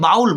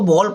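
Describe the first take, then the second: First: The vowel sounds like 'ow' in 'cow'. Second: The vowel sounds like 'oh' in 'go'. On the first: The speaker calls it wrong. "But बाउल गलत होगा" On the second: The speaker calls it right. "इसको बॉल पढ़ेंगे"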